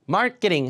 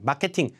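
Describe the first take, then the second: First: Front stress with a reduced, softened middle sound. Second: Even syllables with full vowels and hard consonants. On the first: Native speakers understand it. The speaker calls it right. "강세가 앞이니까 이것도 중성모음화에서 쇼현상" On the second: Native speakers do not understand it well. The speaker calls it wrong. "잘 못 알아들어요"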